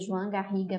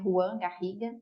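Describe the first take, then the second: First: The first name is said as 'Joan'. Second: The first name is said as 'Juan'. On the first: The speaker calls it right. "o nome dele pronuncia João Garriga mesmo" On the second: The speaker calls it wrong. "Muita gente às vezes acha que eu estou pronunciando errado, que é Juan Garriga"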